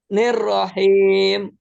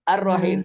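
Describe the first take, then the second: First: It starts with a carried-over 'nir' syllable. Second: It starts cleanly with the syllable 'ar'. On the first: The speaker calls it wrong. "Betul apa salah itu?" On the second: The speaker calls it right. "Ar-Rahim sendiri"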